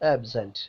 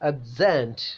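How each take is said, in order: First: The stress is on the first syllable. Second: The stress is on the second syllable. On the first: It is used as a noun. "Noun ആകുന്ന സമയത്ത്" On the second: It is used as a verb. "Verb ആകുന്ന സമയത്ത്"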